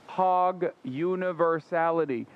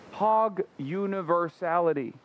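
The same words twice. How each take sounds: First: Hog universality drawn out slowly, each word weighted; restating the streamer's principle slowly for emphasis; slow emphatic restatement. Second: Said in the usual way. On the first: Shown as a demonstration. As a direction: lay down Hog universality like a doctrine. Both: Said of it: "This is a fundamental principle".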